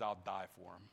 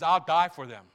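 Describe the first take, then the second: First: Much softer and lower, hushed; hushed vow. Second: Louder, firm restatement; firm declaration. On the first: Pastor voicing Jesus' quiet vow, hushed and low. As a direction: say it almost under your breath. Jesus vows to die for them. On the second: Pastor repeating Jesus' vow to the church, firm and louder. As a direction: declare it out loud with conviction. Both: Acted.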